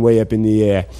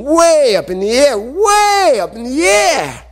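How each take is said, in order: First: Said in the usual way. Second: WAY stretched out and climbing very high; soaring emphasis. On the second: A narrator's reading. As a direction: send “way up in the air” soaring upward, slowly. Acting out the huge throw.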